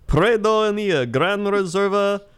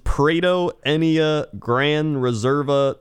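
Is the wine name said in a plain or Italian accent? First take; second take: Italian; plain. First: It is said in a put-on Italian accent. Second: It is said in the speaker's ordinary accent.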